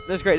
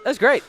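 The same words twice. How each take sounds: First: Said in the usual way. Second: High, loud cry; excited. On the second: Real, not acted. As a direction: burst out delighted. Ironic delight.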